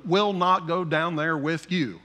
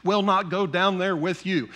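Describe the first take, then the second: First: Will not go down there with you, each word slow and even; slow measured cadence. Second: Said in the usual way. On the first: Retold or imitated. Pastor voicing Jacob refusing to send his son, slow and measured. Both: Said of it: "he said it just like that, and kind of in a cadence".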